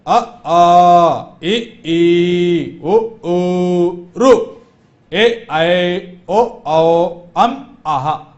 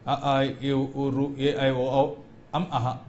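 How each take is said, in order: First: Each vowel said loud and distinct; clear, loud recital of अ, आ, ए, ई; loud correct vowels. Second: Vowels muttered softly and rushed together; a limp, quiet run of vowels; mumbled vowels. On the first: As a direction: model the correct version for the class with full voice. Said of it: "इस प्रकार उच्चारण करना चाहिए". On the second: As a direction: show the wrong, careless way under your breath. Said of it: "ये नहीं". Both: Shown as a demonstration.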